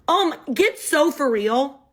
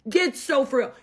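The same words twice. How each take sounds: First: "get so for real" drawn out slowly, rising at the end. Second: "Get so for real" dropping firmly at the end; flat falling "Get so for real". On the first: First take, rising. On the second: Repeat, falling. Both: Retold or imitated.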